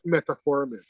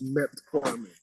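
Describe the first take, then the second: First: "metformin" with an extra syllable, met-a-formin; wrong pronunciation. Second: "metformin" as met-formin, three syllables; correct pronunciation. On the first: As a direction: add an "uh" after met in "metformin". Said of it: "but it's not metformin". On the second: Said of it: "it's metformin". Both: Shown as a demonstration.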